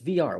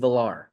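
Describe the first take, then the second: First: The double L is said as a Y sound. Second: The double L is said as an L sound. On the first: The speaker calls it right. "The L L does not make a low sound" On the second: The speaker calls it wrong. "why do like people call him Jonathan Villar?"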